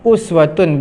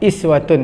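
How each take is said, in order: First: The word begins with an u vowel. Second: The word begins with an i vowel. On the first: "barisnya boleh dibaca dua" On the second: "barisnya boleh dibaca dua"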